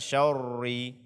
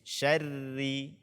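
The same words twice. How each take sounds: First: The sh and r are pronounced thick and heavy. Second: The sh and r are pronounced thin and light. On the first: The speaker calls it wrong. "bukan syarri" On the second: The speaker calls it right. "maka ro tersebut dibaca tipis"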